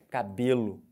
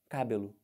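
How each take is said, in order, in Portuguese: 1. A tônica está na sílaba do meio. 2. A tônica está na primeira sílaba. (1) "Porque essa é a sílaba tônica da palavra" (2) "Do jeito que está escrito com acento"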